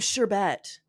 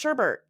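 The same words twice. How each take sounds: First: The second syllable has no r sound. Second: The second syllable has an r sound. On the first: Hardly anyone really says it this way. "Nobody says" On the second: Everyone actually says it this way. "they're like"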